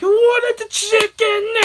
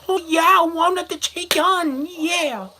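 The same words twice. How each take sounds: First: Slow, high, loud parody of an angry shout; mocking scream. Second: High, hammed-up cries of passion; mock sexual cries. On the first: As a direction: exaggerate the dad's yell to tease. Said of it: "making fun of it to my friend". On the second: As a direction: parody the yell as bedroom ecstasy. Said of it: "when they're having sex".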